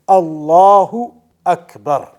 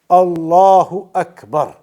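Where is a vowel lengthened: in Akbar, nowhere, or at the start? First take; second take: nowhere; nowhere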